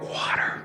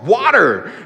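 First: The word is said quietly. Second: The word is said loudly.

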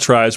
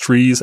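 First: The vowel is an 'eye' sound. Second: The vowel is a long 'ee' sound. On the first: The speaker calls it wrong. "We're going to call it tries. We're going to be wrong" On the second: The speaker calls it right. "is technically pronounced trees"

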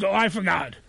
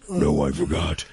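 First: It is said in the speaker's normal voice. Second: It is said in an imitation of her voice.

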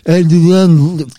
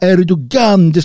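First: The g is softened rather than pronounced hard. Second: The g is pronounced as a hard g. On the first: The speaker calls it right. "det här G ska vara Erdogan" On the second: The speaker calls it wrong. "man får inte säga Erdogan"

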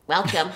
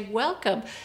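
First: It is said in a cold, rejecting tone. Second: It is said in a warm, welcoming tone.

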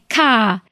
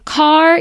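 First: The final r sound is dropped. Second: The final r sound is pronounced. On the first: "words that don't use the R's. So instead of saying car, you'd say ka" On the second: "instead of saying car"

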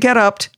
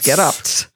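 First: The word ends without an S sound. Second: The word ends with an audible S sound. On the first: The speaker calls it wrong. "Don't say getopt" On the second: The speaker calls it right. "it's not French. I have to pronounce the S"

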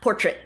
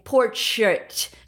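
First: The first syllable sounds like a plain por. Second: The first syllable sounds like the word porch. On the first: "not portrait" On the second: "I am saying portrait, ... because most of the ones you're doing right now are on people's porches"

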